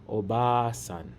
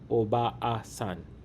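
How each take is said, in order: First: The a vowel is stretched into one smooth sound. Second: The two a vowels are said as separate beats. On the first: The speaker calls it right. "we stretch the vowel smoothly to say" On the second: The speaker calls it wrong. "We don't say each a separately like"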